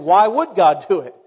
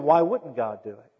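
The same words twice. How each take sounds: First: Louder, sceptical challenge on WOULD; doubting attitude. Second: Confident rhetorical question leaning on "wouldn't"; expectant attitude. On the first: Preacher voices the congregation's weak faith, doubting. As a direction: question it doubtfully, hitting "would". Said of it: "we have the attitude of". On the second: Preacher models childlike faith for the congregation, expectant. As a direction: ask it as if the answer is obvious. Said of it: "we ought to have the attitude of". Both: Acted.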